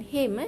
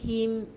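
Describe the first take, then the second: First: The vowel is an e sound. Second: The vowel is a clear i sound. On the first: The speaker calls it wrong. "bukan him eh" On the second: The speaker calls it right. "bunyi i"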